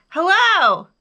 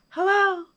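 First: Loud, high hello; big ringing call; shouted. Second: High echoed hello, less forceful; high echoing call. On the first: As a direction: holler it across the mountains. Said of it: "again he shouted". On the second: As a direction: answer like a mountain echo. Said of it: "his own voice echoed". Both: A narrator's reading.

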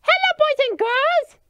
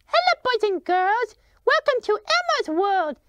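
First: Put-on overbright kids party host. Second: Put-on beaming on-camera welcome to kids; overbright kids party host. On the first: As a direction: snap back to sunny on-air host. Back on air, switches to host. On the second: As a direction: greet the children like a party host.

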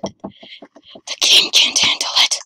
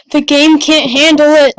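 First: Slow, voiceless whisper; hushed, drawn-out whispered repeat. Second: Much louder, excited outburst; loud, overwhelmed cry of excitement; loud exclamation. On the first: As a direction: whisper it slowly in stunned awe. Same line repeated in whisper. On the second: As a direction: blurt it out at full volume. Repeats line loudly, then whispered. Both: Real, not acted.

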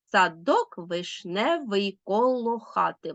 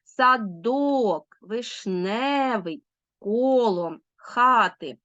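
First: Slow, measured beat through "садок вишневий коло хати", like a simple little rap; march-like scansion. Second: Word by word, drawing out the stress in "Садок", "вишневий", "коло", "хати"; stressed syllables stretched. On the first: Teacher shows pupils the meter of "садок вишневий коло хати", scanned like a march. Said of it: "наче марш, наче репчик своєрідний".

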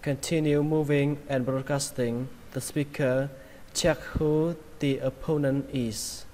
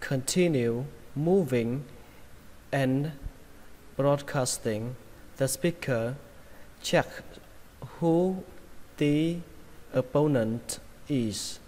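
First: Linked phrases at an even, natural flow; faster connected reading. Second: Very slow, separated words with pauses; slow word-by-word reading. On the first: Teacher rereading the sentence for learners, faster and connected. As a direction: read it through without word breaks. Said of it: "Mình sẽ đọc nhanh cho các bạn". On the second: Teacher modelling the sentence for learners, slow word by word. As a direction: give each word its own space. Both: Shown as a demonstration.

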